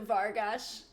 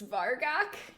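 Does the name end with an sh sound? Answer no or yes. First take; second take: yes; no. First: The name ends with an sh sound. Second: The name ends without an sh sound. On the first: The speaker calls it right. "it might be a sh, they thought that sounded better" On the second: The speaker calls it wrong. "they originally thought it that way"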